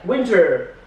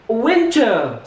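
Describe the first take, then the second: First: The final r is clearly pronounced. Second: The final r is not pronounced. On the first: "pengucapan U S A, R-nya ini hidup, ya kan, tapi tebal" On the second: "kalau dalam bentuk U K ... Jadi R-nya itu hilang"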